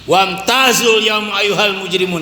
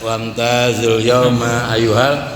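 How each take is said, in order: First: It is recited loudly and forcefully, like shouting. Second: It is recited in a calm, relaxed way.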